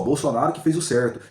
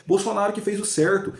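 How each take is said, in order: First: Said in the usual way. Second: Pitched higher, insistent; emphatic claim. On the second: Real, not acted. Vlogger defending Bolsonaro to viewers, pitched higher. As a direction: push it up high to insist.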